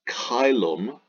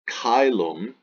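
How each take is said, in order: No difference in how they are said.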